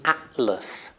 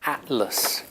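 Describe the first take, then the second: The two takes are said the same way.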